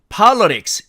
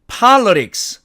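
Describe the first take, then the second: First: It is said with American syllable division. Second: The same.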